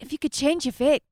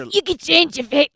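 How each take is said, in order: First: The line is said in a soft, gentle voice. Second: The line is said in a rough, strained voice. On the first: The speaker calls it right. "isn't it like softer like that?" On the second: The speaker calls it wrong. "Like that just sounds like you're hurting yourself"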